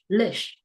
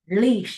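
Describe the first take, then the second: First: The second syllable has a short vowel. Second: The second syllable has a long vowel. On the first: The speaker calls it right. "no, relish" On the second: The speaker calls it wrong.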